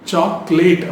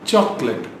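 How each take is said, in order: First: The last syllable sounds like 'late'. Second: The last syllable sounds like 'let'. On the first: The speaker calls it wrong. "which is wrong" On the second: The speaker calls it right. "அது லெட்"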